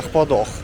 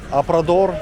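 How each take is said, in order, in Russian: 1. Звуки «р» произносятся как придыхательные звуки «х». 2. Звуки «р» произносятся как раскатистые «р». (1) "это правильное произношение, чисто бразильское" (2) "я его всю дорогу называл неправильно"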